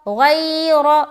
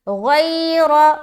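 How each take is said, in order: Both takes have the same delivery.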